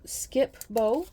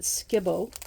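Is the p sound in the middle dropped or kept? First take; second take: kept; dropped. First: The p is clearly said before Bo. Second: The p is dropped, blending into Skibbo.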